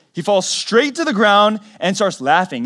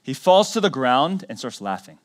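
First: Higher, louder repeat of "He falls straight to the ground"; raised emphatic restatement; emphatic retelling. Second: Said in the usual way. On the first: Shown as a demonstration. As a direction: punch the retelling harder with pitch and volume. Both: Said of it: "repeated with emphasis".

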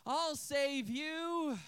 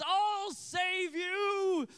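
First: Long-drawn, dutiful mock rescue call; half-hearted hero cry. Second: High, loud, long-stretched rescue cry; mock heroic shout. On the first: Boy leaving watermelon for another rescue, half-hearted mock cry. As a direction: imitate a boy playing hero with less gusto. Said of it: "takes a half-hearted swing at the dragon". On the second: Eight-year-old boy to girl in the tower, mock heroic shout. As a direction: imitate a boy playing the hero at full volume. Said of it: "steps to the side and says".

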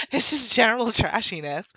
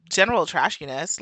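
First: Higher, through a laugh; amused repeat. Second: Said in the usual way. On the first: Real, not acted. Summing up the behavior, laughing and amused.

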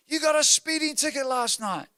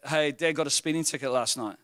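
First: High-pitched mock accusation; outraged daughter imitation. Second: Said in the usual way. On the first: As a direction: accuse like a scandalized kid, voice up high. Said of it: "and goes". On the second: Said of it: "she told my daughter that".

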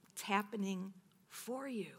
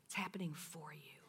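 First: Said in the usual way. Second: Hushed whisper of the key line; whispered repetition. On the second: Real, not acted. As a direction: let it sink in softly. Repeating God's word softly.

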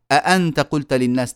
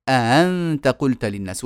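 First: Said in the usual way. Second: أأنت with second hamza eased into a glide; don't close the throat on second hamza of أأنت; softened second hamza. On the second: Shown as a demonstration. Teacher showing what it becomes, second hamza softened. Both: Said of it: "تصير".

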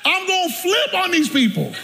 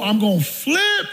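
First: High-pitched comic threat on FLIP; mock outburst. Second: Slow, drawn-out build to FLIP; building threat. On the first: Preacher about to flip on his relatives, high mock outburst. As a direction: let the pitch leap as if losing it. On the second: Retold or imitated. Preacher winding himself up in his mind, slow building threat. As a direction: stretch out FLIP as tension builds.

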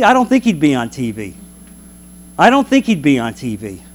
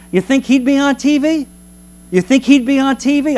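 First: Said in the usual way. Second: High, teasing question about TV; mock incredulous. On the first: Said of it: "answer to own question". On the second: Shown as a demonstration. Preacher teasing his congregation, incredulous. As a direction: ask it like it's absurd. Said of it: "mocking rhetorical question repeated".

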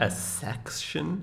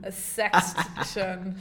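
First: Mock incredulous. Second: A section said slowly, stretched out; slow, drawn out repeat. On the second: Shown as a demonstration. Echoing the co-host's question, slow drawn-out A section.

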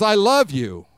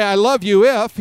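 First: Said in the usual way. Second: "I love you if" with a louder punch on "if"; conditional love, stressed. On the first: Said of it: "he says". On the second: Shown as a demonstration. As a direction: lean on "if" as the condition. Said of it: "He doesn't say".

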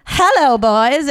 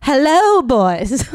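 First: Put-on very high, loud HELLO falling away, boys lifted in a rise; HELLO sung out high and loud, boys lifting up; a second try with Hello soaring high, boys curling up; hello boys option two. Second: Put-on high, loud HELLO then BOYS dropping back; HELLO punched high and loud, boys plain; hello boys option one. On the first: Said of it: "Or do I say". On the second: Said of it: "Do I say". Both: Shown as a demonstration.

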